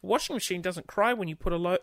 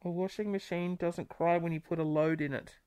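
First: Said in the usual way. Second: Muffled behind a hand; hand over mouth. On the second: Real, not acted. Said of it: "I say that with the, my hand over my mouth".

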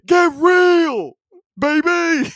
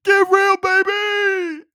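First: Put-on high, loud shouted get real, baby; Dick Vitale catchphrase. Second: Put-on even higher, shouted get real, baby; bigger Dick Vitale catchphrase. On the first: Podcaster punches the catchphrase in his announcer impression. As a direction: bellow the catchphrase like a courtside announcer. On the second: Podcaster repeats the catchphrase, pushing his announcer impression further. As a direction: crank the catchphrase to a squealing peak. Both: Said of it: "This is my impression of Dick Vitale".

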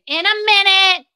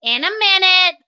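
First: Called out loud and high to Bryn; answering an assistant from afar; calling out. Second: Loud, high called reply; calling out again. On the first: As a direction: call it out across the room. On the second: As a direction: shout it back to the next room. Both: Real, not acted. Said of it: "Bryn asked me for something".

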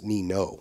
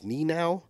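First: "Nino" ending like "no"; "Nino" with a long O ending; corrected pronunciation. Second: "Ninow" ending like "now"; old mispronunciation. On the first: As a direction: say "Nino" as knee-NO, rhyming with go. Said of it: "it's pronounced Nino". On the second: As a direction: say "Ninow" as knee-NOW, rhyming with cow. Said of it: "previously pronounced his last name as". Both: Shown as a demonstration.

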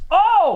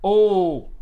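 First: High, louder "Oh!"; loud exclamation. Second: Said in the usual way. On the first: Pretend. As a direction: belt it out with full surprise. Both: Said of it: "That was a little better".

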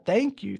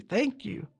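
First: Lively mock-grateful thanks; excited thanks. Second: A soft, choked thank-you, dropping away; tearful whisper of thanks. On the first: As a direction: throw the thanks up eagerly. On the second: Retold or imitated. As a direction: let the thanks crack and fade. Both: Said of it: "He's so excited".

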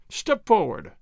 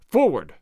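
First: Said in the usual way. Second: Louder, barked order; sharp command. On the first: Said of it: "commanded again". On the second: A narrator's reading. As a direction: snap the order out. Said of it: "Signor Zorro commanded again".

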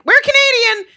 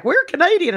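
First: High, loud, hurried insistence; urgent protest. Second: Put-on high Southern-accented claim. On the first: Retold or imitated. Tourist assuring a hostile Greek cab driver, urgent high protest. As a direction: blurt it out in a high mock yell. Frightened Americans insist they are Canadian. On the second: Southern friend posing as Canadian to cab driver, Southern accent. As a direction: imitate a Southerner insisting, pitched up. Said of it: "who's Southern, is like".

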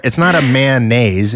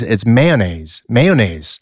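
First: "mayonnaise" with a long held "man", /mæn-neɪz/; "mayonnaise" mocked with a stretched "man" sound; wrong mayonnaise. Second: Slow "mayonnaise" as /meɪ-o-neɪz/; "mayonnaise" in three careful syllables; correct mayonnaise. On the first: Host mocking the wrong "mayonnaise", long "man" start. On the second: Host drilling cohost, slow three-syllable "mayonnaise". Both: Shown as a demonstration.

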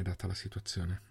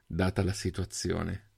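First: Trailing off softly; resigned concession. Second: Slow, deliberate repeat; measured and weighty, taking time over it; resigned repetition. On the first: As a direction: let it drop away, much softer. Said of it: "Melvin annui sospirando". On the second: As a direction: draw it out slowly, resigned. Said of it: "ripeté". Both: A narrator's reading.

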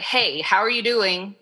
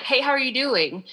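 First: Said in the usual way. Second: Pitched up, casual hey; higher bright greeting. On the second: Shown as a demonstration. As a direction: ask it lightly, up high. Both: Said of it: "tone makes a huge difference in that".

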